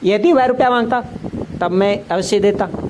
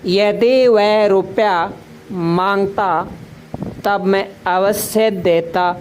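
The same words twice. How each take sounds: First: The sentence is said in one run without pausing. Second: The sentence is said with short pauses between parts. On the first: "एक साथ नहीं बोलते इसे, ... ऐसे नहीं बोलते" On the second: "कभी रुक कर बोलते हैं थोड़ा"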